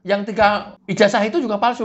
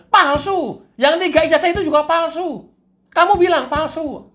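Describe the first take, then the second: First: Said in the usual way. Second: Higher, louder devil confirming; high, loud cartoon devil. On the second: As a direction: push it up high and insist.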